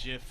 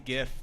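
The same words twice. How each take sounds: First: The word begins with a soft J sound. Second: The word begins with a hard G sound. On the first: This is easier to say and more popular. "GIF is easier to say and and seems more popular" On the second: This is the proper pronunciation. "it's properly GIF"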